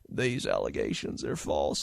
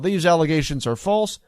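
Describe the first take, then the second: First: It is said in an imitated, put-on voice. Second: It is said in the speaker's ordinary voice.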